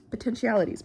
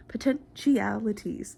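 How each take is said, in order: First: Said in the usual way. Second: POTENTIALITIES stretched out syllable by syllable; drawn-out repeat. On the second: Shown as a demonstration. Vlogger playfully repeats a word to viewers, drawn out. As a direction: draw out "Potentialities" slowly for playful effect.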